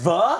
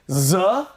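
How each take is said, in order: First: It begins with a normal th sound. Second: It begins with a z sound, not th. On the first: The speaker calls it right. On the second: The speaker calls it wrong.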